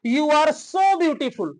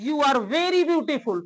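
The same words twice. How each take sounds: First: Slow, deliberate, so stressed; slow example sentence. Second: Slow, deliberate, very stressed; slow example sentence. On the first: Teacher models an example sentence slowly for students. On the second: Teacher models the contrasting sentence slowly. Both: Shown as a demonstration. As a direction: lay it out slowly for the class. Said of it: "अब इसमें क्या अंतर है?".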